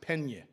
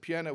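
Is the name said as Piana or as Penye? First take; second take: Penye; Piana. First: The name is said as Penye. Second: The name is said as Piana. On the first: This is how locals say the name. "we pronounce it Penye" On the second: This is the form spelled in the manuscripts. "we don't pronounce it Piana"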